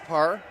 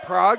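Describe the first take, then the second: First: The name sounds like the word par. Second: The name sounds like the city Prague. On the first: The speaker calls it right. "it's actually pronounced Parr" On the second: The speaker calls it wrong. "heard us pronouncing it Prague"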